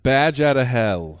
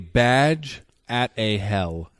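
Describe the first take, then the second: First: The phrase is said quickly, run together. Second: The phrase is said at an ordinary speed.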